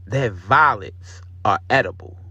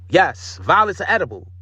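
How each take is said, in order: First: Said in the usual way. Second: Higher, louder, amazed emphasis on "violets". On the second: Real, not acted. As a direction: marvel at "violets are edible". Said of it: "I did not know that".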